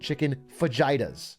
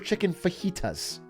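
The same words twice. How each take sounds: First: Fajitas is given an English-style pronunciation. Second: Fajitas is given a Spanish-style pronunciation. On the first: This is how an uncultured person says it. The speaker calls it wrong. "I don't say chicken fajitas" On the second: This is how a worldly person says it. The speaker calls it right. "I order chicken fajitas"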